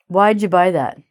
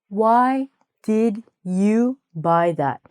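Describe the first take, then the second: First: 'Did' is squished into 'why' as 'why'd'. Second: 'Did' is said as a separate full word. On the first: The speaker calls it right. "we just kind of squish all the words together" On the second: The speaker calls it wrong. "no one's going to say to you"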